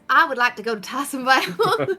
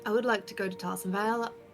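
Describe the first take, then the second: First: It is said in the character's voice. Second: It is not said in the character's voice.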